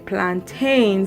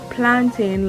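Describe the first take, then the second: First: The last syllable is full, like in maintain. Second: The last syllable is reduced, like in mountain. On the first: This is how Americans say it. "you guys say plantains like how you say maintain" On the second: This is how the speaker's own community says it. "we say plantain like how you say mountain"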